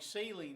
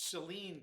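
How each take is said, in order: First: The stress is on the first syllable. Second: The stress is on the second syllable. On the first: The common word for salt solution. The speaker calls it wrong. "it's not saline like saline solution" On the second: The name of the county. The speaker calls it right. "The emphasis is on the second syllable"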